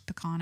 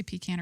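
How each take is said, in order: First: "pecan" as puh-KAHN; alternative pronunciation. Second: "pecan" as PEE-can; alternative pronunciation. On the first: Host wondering how she says it, pecan as puh-KAHN. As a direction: say "pecan" with an ah in the second syllable. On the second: Host wondering how she says it, pecan as PEE-can. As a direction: say "pecan" with a long ee up front. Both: Shown as a demonstration. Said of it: "Do I say pecan or pecan?".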